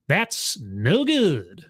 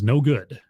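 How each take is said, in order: First: Very slow, drawn-out catchphrase; Sonic. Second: Said in the usual way. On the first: Retold or imitated. Streamer quoting a cartoon catchphrase, drawn out. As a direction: stretch each word out in a swooping cartoon catchphrase. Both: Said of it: "as Sonic used to say".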